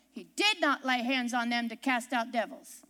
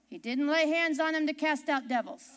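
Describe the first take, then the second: First: "did not" in two separate stressed words, low-pitched. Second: Said in the usual way. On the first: Real, not acted. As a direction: lean firmly on "did not", then drop low. Repeats it stressing the negation.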